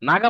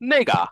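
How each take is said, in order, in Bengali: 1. প্রথম স্বরধ্বনিটি একটি খোলা 'a' ধ্বনি। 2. প্রথম স্বরধ্বনিটি একটি 'ei' ধ্বনি। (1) "নাগা নাগা মানে ওইটা" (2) "ওইটাকে চাইনিজরা অনেক সময় এভাবে বলে নেগা"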